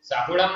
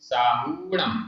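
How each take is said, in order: First: साहुणम with short हु; साहुणम, हु cut short; wrong pronunciation. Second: साहुणम with long हू; साहुणम with हु held long; correct pronunciation. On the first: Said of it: "नहीं". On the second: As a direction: draw out हु in साहुणम. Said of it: "बड़े ऊ की मात्रा है". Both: Shown as a demonstration.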